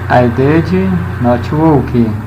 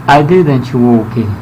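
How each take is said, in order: First: The negative is said as two full words. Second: The negative is contracted into one word. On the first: "se você não quiser pronunciar did not" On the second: "forma contraída, resumida"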